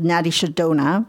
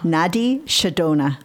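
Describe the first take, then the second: First: The term is said at a quicker pace. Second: The term is said at a slower pace.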